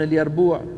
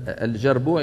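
First: The second consonant is a 'y' sound. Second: The second consonant is a 'j' sound. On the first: This is how one tribe says it. "يقولون اليربوع" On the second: This is the usual form. "يقلبون الجيم ياء بدل مثلا الجربوع"

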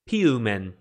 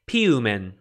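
No difference in how they are said.

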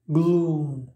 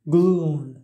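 No difference in how they are said.

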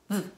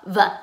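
First: The v sound is said as a tiny sound. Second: The v sound is said with extra voice. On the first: The speaker calls it right. "Make sure you're just saying V. It's just a really little sound" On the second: The speaker calls it wrong. "make sure you're not saying V"

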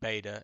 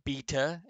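First: The first vowel is not a long E sound. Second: The first vowel is a long E sound. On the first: This is how the speaker usually says it. "instead of beta" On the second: This is how a Greek speaker says it. "he also used a long E for these two letters here"

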